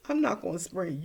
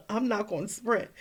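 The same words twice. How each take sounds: First: Said in the usual way. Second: Laughing through the words; laughing half-joking no; laughing refusal. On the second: Retold or imitated. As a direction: giggle as you refuse to sprint. Laughing refusal while running.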